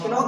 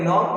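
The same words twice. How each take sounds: First: नॉक wrongly said with its silent K sounded; mispronounced नॉक, K not silent; wrong pronunciation. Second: Said in the usual way. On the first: Shown as a demonstration. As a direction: voice a K before the N in नॉक. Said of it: "नहीं पढ़ेंगे". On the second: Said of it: "पढ़ेंगे".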